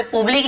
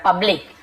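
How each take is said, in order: First: पब्लिक with an oo vowel in the first syllable, the wrong way; wrong pronunciation. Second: पब्लिक with the short a (अ) vowel in the first syllable; correct pronunciation. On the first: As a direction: say पब्लिक with a u sound, like "publik". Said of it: "यहाँ पे पब्लिक नहीं बोल रहा हूँ मैं". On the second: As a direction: say पब्लिक with a short a sound, "pəblik". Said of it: "अ ध्वनि निकल रहा है". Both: Shown as a demonstration.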